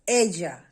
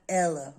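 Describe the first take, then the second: First: The double L sounds like an English J. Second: The double L sounds like an English L. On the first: The speaker calls it right. "Double L's in Spanish give you a sound of J. So it's ella" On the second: The speaker calls it wrong. "not Ella"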